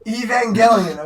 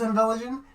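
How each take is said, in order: First: "Evangelion" fully sounded as "ee-van-GEL-ee-un"; corrected pronunciation. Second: "Evangelion" garbled as "in-VEL-uh-jun"; mispronounced. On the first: Correcting own slip for a friend, "Evangelion" as "ee-van-GEL-ee-un". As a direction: say "Evangelion" with a hard g, falling tune. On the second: Fumbling the anime title for a friend, "Evangelion" as "in-VEL-uh-jun". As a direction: say "Evangelion" with a soft j, dropping the "gel-ee" sound. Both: Real, not acted. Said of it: "what did you say?".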